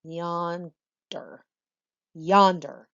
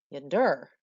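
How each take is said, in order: First: YON-der, weight on YON; "yonder" slowly, falling from YON to der; stress on first syllable. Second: Yon-DER, weight on DER; "yonder" oddly stressed on its ending; stress on second syllable. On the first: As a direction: say "yonder" with a strong first syllable and weak second. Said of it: "we say". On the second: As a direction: say "yonder" with a weak first syllable and strong second. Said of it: "It would sound strange for us to say". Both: Shown as a demonstration.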